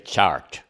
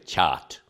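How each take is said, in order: First: The R sound after the vowel is pronounced. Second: The R sound after the vowel is dropped. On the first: This is how most Americans say it. "most Americans say chart" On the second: This is how a Bostonian says it. "I'm from Boston, so I don't pronounce my R's"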